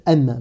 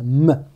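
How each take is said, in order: First: Said in the usual way. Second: « M » réduit au son « mm »; son de la consonne. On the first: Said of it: "de la consonne française". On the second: Shown as a demonstration. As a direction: fais le son de « M » sans dire le nom de la lettre. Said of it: "qui correspondait au son". (« M » prononcé comme simple son nasal)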